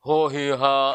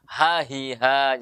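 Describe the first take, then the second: First: The first vowel is a rounded o. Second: The first vowel is an open a. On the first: The speaker calls it wrong. "jangan baca ho hi ha" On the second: The speaker calls it right. "Jadi buka mulut"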